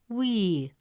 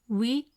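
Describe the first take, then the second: First: The vowel is long. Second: The vowel is short. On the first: "the presence of ya makes it we" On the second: "Instead of pronouncing it as we"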